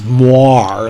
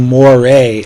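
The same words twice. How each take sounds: First: The word's ending rhymes with noir. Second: The word's ending does not rhyme with noir. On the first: The speaker calls it right. "like rhymes with noir" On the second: The speaker calls it wrong. "I had been saying moire like an idiot"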